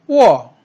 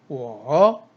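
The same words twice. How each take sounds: First: The pitch falls sharply from high to low. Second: The pitch dips low then rises. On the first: "사성" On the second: "삼성"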